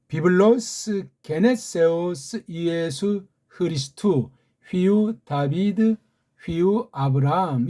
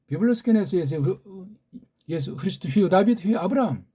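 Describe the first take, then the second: First: The phrase is read at a slow pace. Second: The phrase is read at a fast pace. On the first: "이렇게 읽습니다" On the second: "조금 더 빨리 읽어볼까요?"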